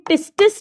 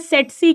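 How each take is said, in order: First: It is said with t sounds, like tit-sis. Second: It is said with a t inside, like set-see. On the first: The speaker calls it wrong. "इसे टिस्टिस नहीं कहते" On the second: The speaker calls it right. "या सेटसी कहते हैं"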